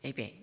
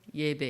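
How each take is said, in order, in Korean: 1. 이 단어는 평범한 'e' 소리로 시작해요. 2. 이 단어는 'ye' 반모음 소리로 시작해요. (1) "에베 에베 이렇게 발음한다고" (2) "예배 이렇게 하는데"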